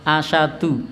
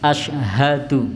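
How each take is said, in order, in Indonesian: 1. Bunyi h di tengah hilang. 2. Bunyi h di tengah diucapkan dengan jelas. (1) "biasanya diucap asyadu ... jadi haknya hilang" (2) "harusnya haknya diucapkan asyhadu"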